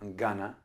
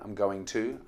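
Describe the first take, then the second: First: The words blend into a short schwa form. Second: Every syllable is said fully and separately.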